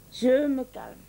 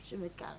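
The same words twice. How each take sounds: First: Said in the usual way. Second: Much softer, lower, fading calm-down; barely voiced self-soothing; near whisper. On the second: Wife talking herself down, almost whispered.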